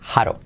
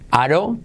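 First: The word begins with a breathy h sound. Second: The word begins directly with the vowel.

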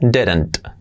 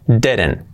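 First: The final T is clearly pronounced. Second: The final T is practically dropped. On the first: "Si la queremos marcar primero" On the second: "Y la T del final, pues prácticamente se omite"

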